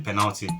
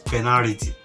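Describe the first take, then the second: First: The middle consonant is an L sound. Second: The middle consonant is an R sound. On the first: The speaker calls it right. "it's just simply penalty" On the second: The speaker calls it wrong. "we used to pronounce that word as penalty, P E N A R I T Y"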